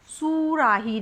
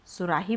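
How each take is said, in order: First: सुराही with a long "sooo" at the start; stretched first vowel. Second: Said in the usual way. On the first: Shown as a demonstration. Teacher shows how it isn't said, first syllable stretched. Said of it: "इसको सुराही नहीं बोलते". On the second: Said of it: "सुराही बोलते हैं".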